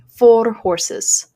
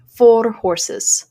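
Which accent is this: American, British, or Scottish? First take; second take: Scottish; Scottish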